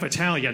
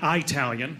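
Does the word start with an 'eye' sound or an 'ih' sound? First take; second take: ih; eye. First: The word starts with a short 'ih' sound. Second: The word starts with a long 'eye' sound. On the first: The speaker calls it right. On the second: The speaker calls it wrong.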